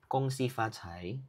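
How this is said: It is said in Mandarin pronunciation. "Mandarin is"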